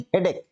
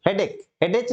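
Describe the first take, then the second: First: "हेडेक" said correctly, ending in a hard "k". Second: "हेडेक" said wrongly as "headech", ending in a "ch" sound. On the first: Teacher corrects students: "हेडेक" ends in a hard "k". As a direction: gives the right "हेडेक", finishing with a clean "k" sound. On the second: Teacher shows students the wrong way: "हेडेक" ending in "ch". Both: Shown as a demonstration. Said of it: "एच नहीं पढ़ेंगे इसको".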